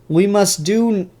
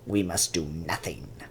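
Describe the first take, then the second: First: It is said in his own normal voice. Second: It is said in a Palpatine impression voice.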